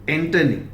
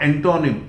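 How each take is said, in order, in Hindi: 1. बीच का स्वर हल्का uh ध्वनि है। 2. बीच का स्वर साफ़ o ध्वनि है। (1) "दिस इज स्वा यानी ए" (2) "ये ओ ओ is not pronounced as ओ"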